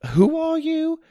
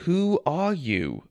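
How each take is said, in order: First: High, startled question. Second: Slow, firm repeated question. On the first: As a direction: blurt it out in shock. Startled narrator confronting stranger. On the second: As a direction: ask again, slowly and firmly. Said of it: "I repeated". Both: A narrator's reading.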